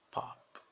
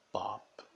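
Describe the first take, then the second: First: Pop, released softly; pop with breathy P. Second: Pop, no I at the end; pop without final vowel. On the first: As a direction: whisper the final P of pop. (pop com P suave) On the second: (pop sem som de I) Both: Shown as a demonstration. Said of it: "não é pop".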